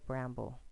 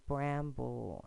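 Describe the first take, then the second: First: Said in the usual way. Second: Bramble split into syllables, bram-ble. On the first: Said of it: "blend it together". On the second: Shown as a demonstration. Teacher sounding out bramble by syllable for students. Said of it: "pronounce this by syllable".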